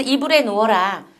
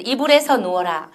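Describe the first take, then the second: First: "이불에" given as the correct form; model sentence. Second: "이불에서" with the extra particle "서" pointed out; imitated learner error. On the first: Teacher demonstrates correct particle in "이불에", as model. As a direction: quote "이불에" as a short model phrase. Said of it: "이래야 되는데". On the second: Teacher quotes learners' wrong particle in "이불에서", pointedly. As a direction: quote "이불에서" as the mistaken form. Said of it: "이렇게 하는 경우도 참 많이 나타나고". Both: Shown as a demonstration.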